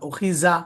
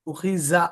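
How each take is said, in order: First: The last consonant sounds like a 'z', tongue inside. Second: The same.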